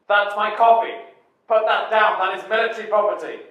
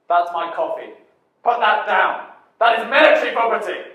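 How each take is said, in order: First: It is delivered in a more restrained way. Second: It is delivered in a very dramatic way.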